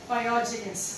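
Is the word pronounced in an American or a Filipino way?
Filipino. It is said with a Filipino, as-spelled pronunciation. "since Filipino man ta, we pronounce it as spelled"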